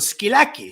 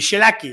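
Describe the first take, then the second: First: The word begins with an sk sound. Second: The word begins with an sh sound. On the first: This is the mainland Greek form. "In Greek it's sk" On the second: This is the Cypriot form. "there it would be shilaki"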